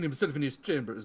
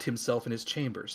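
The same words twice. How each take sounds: First: It is read in a Transylvanian-style accent. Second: It is read in the speaker's ordinary accent. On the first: "why am I going Transylvania?" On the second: "I'm just going to read this normally"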